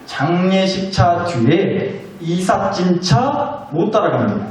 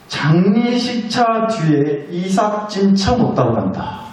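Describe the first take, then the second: First: Very slow emphasis. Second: Slow proverb. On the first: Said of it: "잘 생각하고 들어보세요". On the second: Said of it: "무슨 말인지 아시겠어요?". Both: Shown as a demonstration.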